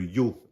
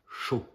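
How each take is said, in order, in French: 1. Il commence par un son 'y'. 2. Il commence par un son 'sh'.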